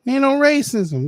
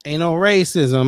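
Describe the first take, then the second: First: High, loud sarcastic jab; mock the denial loudly. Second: Said in the usual way. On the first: Real, not acted. Streamer mocking the man's claim of no racism.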